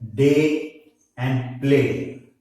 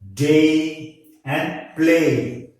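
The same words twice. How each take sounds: First: The vowel is one steady pure vowel. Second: The vowel glides, with a stronger first part. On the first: The speaker calls it wrong. "You generally pronounce these words as" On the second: The speaker calls it right. "but correctly it is to be pronounced as"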